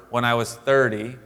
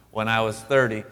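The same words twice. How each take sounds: The two takes are said the same way.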